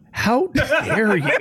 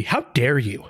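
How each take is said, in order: First: High, slow, hammed-up outrage; mock outraged. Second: Said in the usual way. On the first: Waiting for Chris Paul's reply, mock outrage. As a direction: drag it out, mock offended and laughing. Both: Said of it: "I was just waiting for Scott Chris Paul to be".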